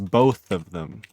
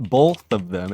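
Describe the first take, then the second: First: The word both has no L sound. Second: The word both has an L sound. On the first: The speaker calls it right. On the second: The speaker calls it wrong.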